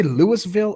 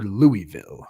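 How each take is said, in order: First: Louisville with the S sounded, "Lewis-vill". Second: Louisville with a silent S, "Louie-vill". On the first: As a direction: say Louisville as "LOO-iss-vill". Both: Shown as a demonstration. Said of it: "Did you say Louisville or Louisville".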